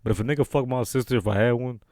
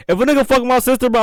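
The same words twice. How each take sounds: First: Low, softer hypothetical; toned-down and low; subdued restatement. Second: Higher, animated outburst; emphatic and high; worked up. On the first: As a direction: bring it down, low and quiet. Restates it after admitting no sister. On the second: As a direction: say it heated, pitched up high. Hypothetical about his sister, emphatic first take. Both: Real, not acted.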